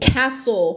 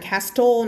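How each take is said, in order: First: "castle" as KA-so with no t; "castle" said with s straight after the a; silent T. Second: "castle" as kas-toh with the t sounded; "castle" mispronounced with a hard t; wrong castle. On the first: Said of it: "ไม่อ่าน castle นะคะ". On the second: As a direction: pronounce the t in "castle". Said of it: "ไม่อ่าน". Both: Shown as a demonstration.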